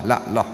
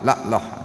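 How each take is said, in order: First: The phrase is clipped, with sounds dropped out. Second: The phrase is clipped, with sounds dropped out.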